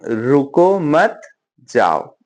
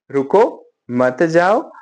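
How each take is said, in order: First: Comma pause between मत and जाओ; pause after मत. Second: रुको set apart, then मत जाओ said as one phrase; pause after रुको. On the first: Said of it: "ऐसे आएगा ये". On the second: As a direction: break after रुको, keep मत joined to जाओ. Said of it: "एक कॉमा से भी चीजें change". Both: Shown as a demonstration.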